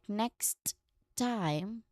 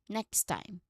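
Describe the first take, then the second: First: Two separate sharp T sounds are released. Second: The two T sounds merge into one. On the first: "instead of making two sharp T sounds like next time" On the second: "it often blends into a single smooth transition like next time"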